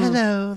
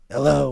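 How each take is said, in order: First: It is said in a light, gentle voice. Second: It is said in a deep, raspy voice. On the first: A female character is speaking. The speaker calls it wrong. "I can't do uh, female voices at all. So I just do" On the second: A male character is speaking. The speaker calls it right. "I like a nice raspy kind of a hello"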